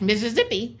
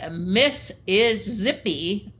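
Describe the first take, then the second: First: The phrase is said quickly, words run together. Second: The phrase is said slowly, word by word. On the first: It is heard as the name of a state. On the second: It is heard as a phrase about a woman.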